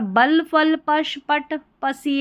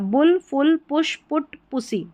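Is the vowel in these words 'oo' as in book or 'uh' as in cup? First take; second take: uh; oo. First: The vowel is an 'uh' sound as in cup. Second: The vowel is a short 'oo' as in book. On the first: The speaker calls it wrong. "ऐसे करके नहीं पढ़ेंगे" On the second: The speaker calls it right. "यहाँ पर यू का उच्चारण उ हो रहा है"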